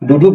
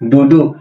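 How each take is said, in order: First: The word ends with a clear k sound. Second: The word ends without any k sound. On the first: The speaker calls it wrong. "মূলত উচ্চারণ হওয়া উচিত ছিল কি ডুডুক ... কিন্তু আমরা ডুডুক বলবো না" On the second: The speaker calls it right. "আমরা কি বলবো? ডুডু"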